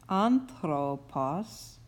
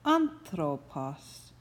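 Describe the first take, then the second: First: "anthropos" said very slowly, stress on the first syllable AN; normal accentuation. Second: "Anthropos" said slowly, stress on the first syllable AN; example word. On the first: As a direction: drag out "anthropos" with the accent on AN-thro-pos. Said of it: "the normal accentuation of this word one". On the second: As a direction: read "Anthropos" slowly, pointing at its spelling. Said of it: "you would see the word spelled like this". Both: Shown as a demonstration.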